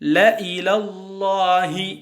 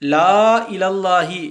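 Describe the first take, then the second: First: The first vowel is cut short. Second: The first vowel is drawn out long. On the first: The speaker calls it right. "ல இலல்லாஹி என்று ஓத வேண்டும்" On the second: The speaker calls it wrong. "லா இலல்லாஹி என்று இல்லாமல்"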